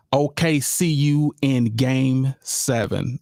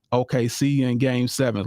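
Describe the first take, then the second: First: "O K C U in game seven" read out slowly, spaced apart. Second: Said in the usual way. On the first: Shown as a demonstration. Host reading a fan's caption to viewers, slow and deliberate.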